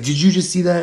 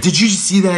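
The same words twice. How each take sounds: First: High rattled echo of the question; brother's echoing yell. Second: High, loud frightened shout; high shouted disbelief; panicked yell. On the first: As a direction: throw it straight back, rattled. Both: Retold or imitated. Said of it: "we're, like, yelling".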